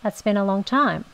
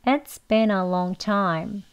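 First: Quicker, linked like natural speech; fast. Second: Very slow, each word stretched; slow teacher model. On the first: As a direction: run "It's been a long time" together at closer to native speed. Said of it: "빨리 발음하시면". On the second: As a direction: spell out "It's been a long time" slowly. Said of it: "천천히 같이 해볼게요". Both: Shown as a demonstration.

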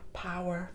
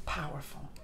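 First: Soft repeat. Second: Hushed breathy whisper; awed whisper. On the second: Vlogger after the fiery ending, whispering in awe. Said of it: "awed whisper". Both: Real, not acted.

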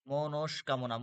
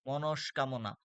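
Both takes have the same delivery.

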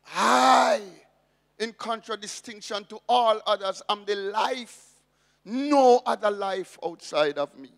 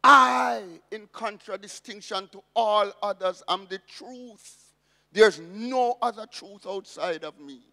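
First: I rings out loud, the rest rushed and rising; emphatic I. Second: I punched hard and loud, then the rest builds; emphatic I. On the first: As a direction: stress I, push the phrase quickly to a loud finish. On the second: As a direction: hit the word I hard, like a declaration. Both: Shown as a demonstration. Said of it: "The Greek is emphatic".

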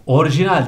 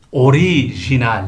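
First: ORIJINAL as "orjinal", middle i dropped; wrong pronunciation. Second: ORIJINAL slowly, "o-ri-ji-nal"; correct pronunciation. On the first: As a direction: say orijinal without the i after r. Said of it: "değil". (orijinal yanlış söyleniş, "orjinal") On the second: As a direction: sound the i after r in orijinal. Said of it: "Arada i olacak". (orijinal, aradaki i vurgulu) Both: Shown as a demonstration.

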